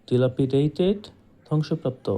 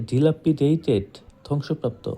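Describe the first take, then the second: Both takes have the same delivery.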